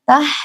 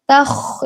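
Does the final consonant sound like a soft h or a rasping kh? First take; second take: soft h; rasping kh. First: It ends in a soft breathy h sound. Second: It ends in a rasping throaty kh sound. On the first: The speaker calls it wrong. "jangan sampai menjadi huruf ha" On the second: The speaker calls it right. "tapi dibaca kha"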